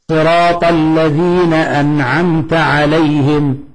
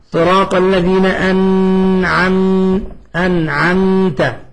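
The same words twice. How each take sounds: First: Slow chanted verse with a light, unpressed meem in "أنعمت"; easy, correct recitation. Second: Slow recitation leaning hard on the meem in "أنعمت"; mistaken over-pressed recitation. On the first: Teacher showing students to read it as it is, easy clear "أنعمت". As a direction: glide from "م" to "ت" in "أنعمت" without pressing or lingering. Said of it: "نقرأها كما هي، سهلة سمحة". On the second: Teacher mimicking someone's recitation mistake, over-held meem in "أنعمت". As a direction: press and hold the "م" of "أنعمت" with a nasal hum. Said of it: "تسمع واحد يقول لك".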